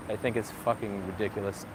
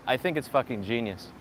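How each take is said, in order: First: Said in the usual way. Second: Deadpan sarcastic praise. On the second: Acted. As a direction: praise it while meaning the opposite. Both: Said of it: "if you couldn't tell by my sarcasm".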